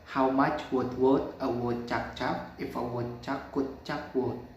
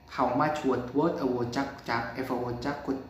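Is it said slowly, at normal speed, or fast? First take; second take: normal speed; fast. First: It is said at normal speed. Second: It is said fast.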